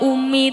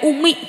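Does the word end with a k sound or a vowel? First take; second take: vowel; k sound. First: The word ends on an open vowel. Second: The word ends with a k sound.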